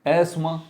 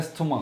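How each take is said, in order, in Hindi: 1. बीच शब्द में सादी s आवाज़ बोली जाती है। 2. बीच शब्द में साफ़ th आवाज़ बोली जाती है। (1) "एस की आवाज़ नहीं आएगी" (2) "टी एच जो है उसकी आवाज़ बहुत खोल के निकालते हैं"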